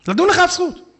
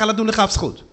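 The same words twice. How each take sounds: First: "אף" raised high and stressed; higher pitched insistence on "אף"; emphatic repeat. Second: Said in the usual way. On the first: Shown as a demonstration. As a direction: lift the whole line higher, leaning on "אף".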